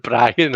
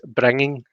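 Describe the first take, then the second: First: "Brian" said like the name, two syllables, no -ing; "Brian" stretched a little, like a misheard "bringing"; heard as Brian. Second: "bringing" with a clear final -ing; "bringing" said carefully, both syllables full. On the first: Showing how "bringing" sounded like "Brian". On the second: Reading out the streamer's word "bringing" plainly. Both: Shown as a demonstration. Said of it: "I think he's saying Brian".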